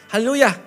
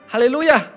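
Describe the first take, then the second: The two takes are said the same way.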